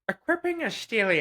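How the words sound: It is read in an altered, put-on voice.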